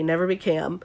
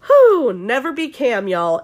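First: Said in the usual way. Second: Drawn-out, louder, higher "never be Cam"; emphatic warning. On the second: Shown as a demonstration. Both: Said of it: "N B C, never be Cam".

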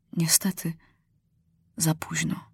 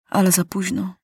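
First: Hushed, breathy whisper of regret; soft grieving whisper. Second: Said in the usual way. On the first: A narrator's reading. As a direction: drop to a whisper, as if too late. Narrator grieves lost chance.

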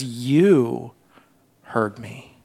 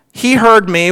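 First: YOU drawn low, then a soft pause; personal, hushed prayer. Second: Said in the usual way. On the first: Acted. Preacher as Jonah turning from telling to addressing God, hushed. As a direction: drop YOU low and let "heard me" fade almost away. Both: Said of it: "he begins to personalize it".

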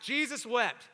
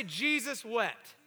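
First: Emphatic Baptist-style call. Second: Said in the usual way. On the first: Shown as a demonstration. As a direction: proclaim it briskly, like rousing a Baptist congregation. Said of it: "Say it like Baptist". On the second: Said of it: "Everyone say".

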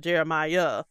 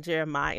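First: [name] said as jerr-uh-MY-uh; name ending in -my-uh. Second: [name] said as JERR-uh-my; name ending in -my. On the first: Host gives the expected biblical name, [name] with final "uh". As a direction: finish [name] with a clear extra "uh". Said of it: "instead of [name]". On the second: Host explains the singer's name, [name] said without final "uh". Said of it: "were mispronouncing his name by saying". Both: Shown as a demonstration.

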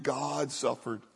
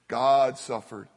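First: "God suffered" dropped much softer, slow and hushed; quiet slow echo of "God suffered"; soft, slow repeat. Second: "God suffered" slow, "God" leaned on hard; slow weighty stress on "God"; slow emphatic stress on God. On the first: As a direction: let "God suffered" sink to a near-murmur. Repeated line, softer take. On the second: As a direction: land "God" heavily, then let "suffered" fall. Repeated line for emphasis. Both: Acted.

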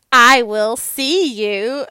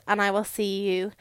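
First: Louder and slow, rising at the end; drawn-out sign-off. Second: Said in the usual way. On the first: Real, not acted. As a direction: stretch it out like a cheery goodbye call. Sign-off restarted for emphasis.

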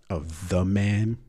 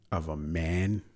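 First: Slowly, "of THE man"; stress on THE. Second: Said in the usual way. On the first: Real, not acted. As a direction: lean on "the" to correct himself.

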